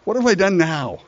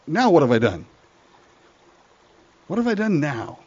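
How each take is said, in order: First: Higher, whiny protest; exasperated little brother. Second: Exasperated little brother. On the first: Younger brother protesting to his big brother, whiny. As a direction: sigh it out like a put-upon kid. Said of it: "And David said". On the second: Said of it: "David looks at his brother and says". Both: Acted.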